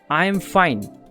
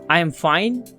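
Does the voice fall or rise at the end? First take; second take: falls; rises. First: The voice falls at the end. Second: The voice rises at the end. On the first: The speaker is sure of it. The speaker calls it right. "This simple statement" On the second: The speaker sounds unsure, like asking a question. The speaker calls it wrong. "would sound like I am fine, please don't do this"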